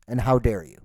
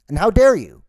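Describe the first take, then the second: First: Said in the usual way. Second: Loud and high, hitting dare hard; outraged shout. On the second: Acted. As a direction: blow up on the repeat, punching dare. Repeats line, second take shouted.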